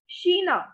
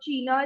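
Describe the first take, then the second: First: The word begins with a 'sh' sound. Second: The word does not begin with a 'sh' sound. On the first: The speaker calls it right. "we read it like Sheena" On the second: The speaker calls it wrong. "not China or China"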